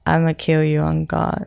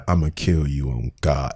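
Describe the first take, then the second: First: A calm, flat-toned threat; deadpan menace. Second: Lower, quieter menacing threat; mock menacing murmur; imitating a menacing tone. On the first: Acted. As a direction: say it coolly, like you mean it. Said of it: "You gonna say it like that?". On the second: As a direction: mimic the chilling delivery, low and soft. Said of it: "with that voice at that tone".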